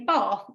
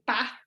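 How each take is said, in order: First: The vowel is long, like ar. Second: The vowel is short, as in cat. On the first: "my nieces who live in Kent would say Bath" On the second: "because I'm from the Midlands"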